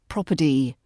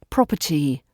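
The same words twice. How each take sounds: First: The middle consonant is a d sound. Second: The middle consonant is a clear t sound. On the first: The speaker calls it wrong. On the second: The speaker calls it right. "using the t sound in property and not swapping it for a d sound"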